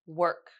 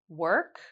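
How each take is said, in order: First: The pitch falls at the end. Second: The pitch rises at the end.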